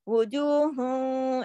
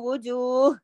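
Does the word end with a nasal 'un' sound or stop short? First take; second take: nasal un; stops short. First: The word ends in a nasalized 'un' sound. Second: The word ends abruptly without a nasal ending. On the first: The reciter joins this word to the next. "मिला के पढ़ूंगी वो जो हूँ ऐसे थोड़ा गुन्ना के साथ" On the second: The reciter pauses after this word. "अगर मैं रुकूंगी तो वो जो ऐसे"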